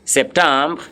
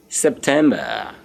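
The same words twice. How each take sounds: First: "September" as French sep-tahm-bruh; French pronunciation. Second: Said in the usual way. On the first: Shown as a demonstration. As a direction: say "September" as French septembre, open nasal middle vowel. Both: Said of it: "September is your September".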